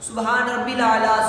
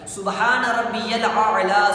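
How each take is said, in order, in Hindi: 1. बीच का शब्द 'rabbil' की तरह बोला जाता है। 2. बीच का शब्द 'rabbiyal' की तरह बोला जाता है। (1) "गलती कर जाते हैं... रब्बिल नहीं है" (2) "रब्बियल आला है"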